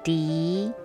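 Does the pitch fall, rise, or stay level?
rise. The pitch rises at the end.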